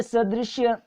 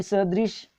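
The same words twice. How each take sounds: First: सदृश्य ending in "shya"; added final ya. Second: सदृश ending on "sh"; no final ya. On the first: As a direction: say सदृश्य as sa-drish-YA. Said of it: "यह आगम हो गया". (सदृश्य के अंत में "य" जोड़ें) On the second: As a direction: say सदृश as sa-drish. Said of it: "यानी सदृश". (सदृश के अंत में केवल "श") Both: Shown as a demonstration.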